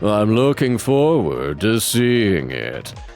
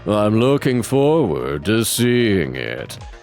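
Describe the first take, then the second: First: It is said in a sarcastic tone. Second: The same.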